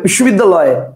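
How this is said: The word is said as one unbroken chunk. "কেউ একবারে বলবে বিশ্ববিদ্যালয়, কটা হলো? একটা।"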